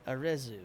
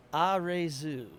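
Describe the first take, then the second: First: Arezu said uh-REH-zoo, short REH; corrected pronunciation. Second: Arezu said ah-RAY-zoo, slow and careful; Arezu, stress on RAY; careful pronunciation. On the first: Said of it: "Re, not Re". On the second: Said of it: "please tell me if I'm saying this right". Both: Shown as a demonstration.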